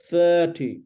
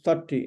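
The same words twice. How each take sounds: First: THIRTY with a long held first vowel; elongated start on THIRTY, falling at the end; stretched vowel. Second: THIRTY with a short, quick first vowel; unstretched first syllable in THIRTY; too-short vowel. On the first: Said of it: "it's stretched". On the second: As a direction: show the wrong "thirty", first syllable not held. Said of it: "not thirty". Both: Shown as a demonstration.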